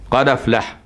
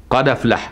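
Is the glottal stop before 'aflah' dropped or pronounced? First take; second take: dropped; dropped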